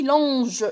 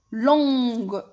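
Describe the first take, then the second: First: "لونج" ending in a French J sound, like longe; soft G, wrong form. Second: "لونج" as longue, drawn out with hard G; hard G, correct form. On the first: Teacher showing what E alone gives, "لونج" with soft zh. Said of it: "زدتش ال E وحدها". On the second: Teacher giving the correct feminine, "لونج" with hard G. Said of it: "زدت ال U وزدت ال E". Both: Shown as a demonstration.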